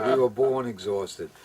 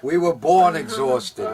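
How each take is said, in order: First: Said in the usual way. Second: 1 emphatic. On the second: Acted. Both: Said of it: "repeated line".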